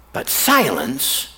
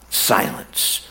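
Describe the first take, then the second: First: Said in the usual way. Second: Whispered slowly, almost no voice; hushed whisper. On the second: Shown as a demonstration. Preacher lets John's unanswered prayers hang, whispered. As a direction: breathe the word Silence as a soft whisper.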